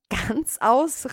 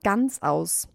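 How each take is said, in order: First: "Ganzaus" as a higher, rising question; "Ganzaus" echoed high and questioning; startled exclamation. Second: Said in the usual way. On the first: A narrator's reading. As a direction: cry "Ganzaus" back in disbelief, voice going up. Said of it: "rief die Maus". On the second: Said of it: "sagte die Katze".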